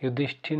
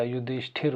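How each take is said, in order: First: "युधिष्ठिर" with the final r lost; wrong pronunciation. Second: "युधिष्ठिर" ending in a clear r; correct pronunciation. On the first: Teacher shows what it is not, "युधिष्ठिर" without its final r. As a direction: say "युधिष्ठिर" ending in -thin, not -thir. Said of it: "नहीं होता". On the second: Teacher gives the proper form, "युधिष्ठिर" with clear final r. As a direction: say "युधिष्ठिर" as yu-dhish-thir. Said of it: "होता है". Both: Shown as a demonstration.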